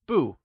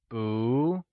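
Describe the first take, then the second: First: The pitch falls sharply on the syllable. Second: The pitch rises on the syllable. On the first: "it changes from fourth tone" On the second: "to second tone when used alongside another falling tone"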